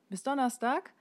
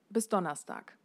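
First: The voice rises at the end like a question. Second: The voice falls at the end like a statement. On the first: The expectation sounds less binding. The speaker calls it wrong. "Wenn bis Donnerstag nach einer Frage klingt" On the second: The expectation sounds firm and binding. The speaker calls it right. "Und das ist der hörbare Punkt"

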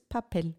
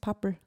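First: The word is said with Spanish pronunciation. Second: The word is said with Austrian German pronunciation. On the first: "auf Spanisch ist es Papel" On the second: "Ich habe es halt eingeösterreicht"

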